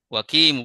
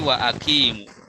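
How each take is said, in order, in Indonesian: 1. Kata-katanya menyambung tanpa hentian glotal. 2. Hentian glotal memisahkan kedua kata. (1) "Wakimu bukan" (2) "tapi wa akimu"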